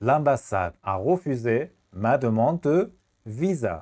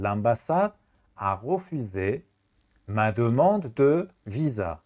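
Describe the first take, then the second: First: A slightly brisker slow repeat; slow classroom repeat. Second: Slow, word-by-word model; slow teacher dictation. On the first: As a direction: say it once more, slowly. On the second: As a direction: dictate the sentence slowly. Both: Shown as a demonstration.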